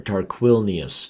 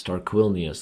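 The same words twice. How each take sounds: First: Tarquinius read slowly, syllable by syllable; sounding out a name. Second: Said in the usual way. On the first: Shown as a demonstration. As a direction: spell out Tarquinius slowly as you first read it. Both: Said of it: "That sounds like a Greek".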